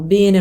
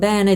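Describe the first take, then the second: First: It is said with the local regional accent. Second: It is said with the standard Italian accent. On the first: "L'accento qui a Fano ... diciamo bene" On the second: "non bene"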